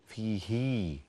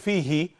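First: The vowel after the h is lengthened. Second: The vowel after the h is short. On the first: The speaker calls it right. "فتقرأ هكذا فيه" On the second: The speaker calls it wrong. "لا نقول فيه ونكتفي بكسرة صغيرة"

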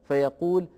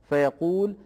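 The two takes are said the same way.

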